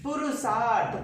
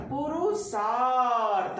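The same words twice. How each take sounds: First: Said in the usual way. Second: पुरुषार्थ said slowly, the आ drawn long; teacher stretching the vowel; slow demo. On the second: Shown as a demonstration. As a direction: draw out the आ in पुरुषार्थ. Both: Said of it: "दीर्घ मात्रा संधि पद में उच्चारण खोजना है".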